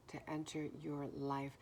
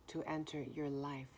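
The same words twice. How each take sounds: The two takes are said the same way.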